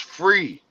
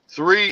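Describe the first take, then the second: First: The word begins with an f sound. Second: The word begins with a th sound. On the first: "they replaced the T H sound with with a motherfucking F" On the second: "they replaced the T H sound with with a motherfucking F"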